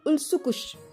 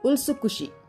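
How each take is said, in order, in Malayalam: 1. ku-വിൽ ശക്തമായ ഊന്നൽ, അവസാന i ഒഴിവാക്കുന്നു. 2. ഒരേപോലെയുള്ള ഊന്നൽ, അവസാന i ഉച്ചരിക്കുന്നു. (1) "കൂവിന് അവൻ ആവശ്യത്തിലേറെ ഊന്നൽ കൊടുത്തു. മാത്രമല്ല, അന്ത്യത്തിലെ ഈ വിട്ടുകളയുകയും ചെയ്തു" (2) "ജാപ്പനീസ് ഉച്ചാരണം ശരിയാക്കിക്കൊണ്ട് അവൻ പറഞ്ഞു"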